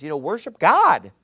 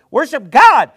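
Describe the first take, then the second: First: Said in the usual way. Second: Higher, louder, emphatic "Worship God"; loud emphatic repeat. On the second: Real, not acted.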